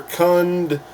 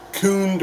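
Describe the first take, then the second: First: "Khund" with a short u; chosen pronunciation. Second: First guess at "Khund", with a long oo; alternate pronunciation. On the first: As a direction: say "Khund" to rhyme with "fund". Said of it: "I'll call it Khund". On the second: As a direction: say "Khund" slowly as "koond". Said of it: "I don't know how to pronounce it". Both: Shown as a demonstration.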